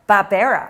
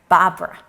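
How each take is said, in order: First: The word is not said like the name Barbara. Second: The word is said like the name Barbara.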